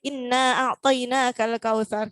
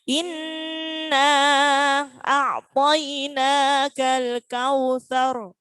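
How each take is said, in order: First: The phrase is rushed through quickly. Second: The phrase is recited slowly with a held hum. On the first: The speaker calls it wrong. "kadang kita salah cepat-cepat" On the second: The speaker calls it right.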